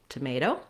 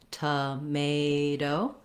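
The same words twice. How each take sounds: First: The word is said quickly. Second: The word is said slowly. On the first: "work on speeding up" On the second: "go slowly on each word"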